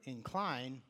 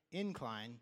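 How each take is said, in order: First: InCLINE, stressed on the second syllable. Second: INcline, stressed on the first syllable. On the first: Preacher rephrasing his question to congregation, stress on second syllable. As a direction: lean on the end of "incline". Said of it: "now let me rephrase that". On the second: Preacher quizzing congregation on the word, stress on first syllable. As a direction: hit the start of "incline", let the end fall. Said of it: "put the emphasis on the second syllable". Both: Shown as a demonstration.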